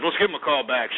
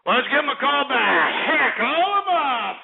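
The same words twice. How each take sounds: First: Said in the usual way. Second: Raucous high-pitched call to action; rowdy holler. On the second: Real, not acted. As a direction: whoop it out, stretching the last words. Hollers repeat of call-back order.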